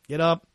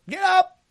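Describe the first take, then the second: First: It is said in a tired, nagging tone. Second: It is said in an excited, energetic tone. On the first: Someone is being roused reluctantly in the morning. "It's the fifth time. ... The snooze has gone off" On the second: The show title carries enthusiasm. "you were excited"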